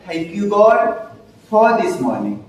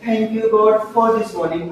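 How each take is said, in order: First: It is said slowly, broken into parts. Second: It is said fast and smoothly.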